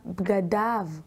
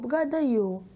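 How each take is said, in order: First: The word ends with an 'av' sound. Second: The word ends with a non-'av' sound. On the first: The speaker calls it right. "ולפניהן יש קמץ. לכן נקרא בגדיו" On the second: The speaker calls it wrong. "לא בגדיו"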